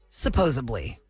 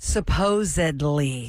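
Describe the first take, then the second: First: A b sound replaces the d sound. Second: A d sound is heard, with no b. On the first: The speaker calls it wrong. "Supposedly is not correct" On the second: The speaker calls it right. "Supposedly is the word"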